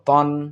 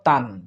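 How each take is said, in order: First: The vowel sounds like a darker 'o'. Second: The vowel sounds like an open 'a'. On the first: The speaker calls it right. "ত আলিফ দুই জবর তন" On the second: The speaker calls it wrong. "অনেকে আমরা বলে থাকি ... তান, কিন্তু তান না"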